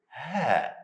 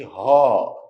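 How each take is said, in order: First: The letter is said light, with a thin sound. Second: The letter is said heavy, with a full sound. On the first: The speaker calls it right. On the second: The speaker calls it wrong. "Don't say ha"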